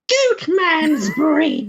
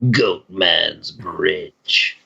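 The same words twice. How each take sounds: First: It is said at a higher pitch. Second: It is said at a lower pitch.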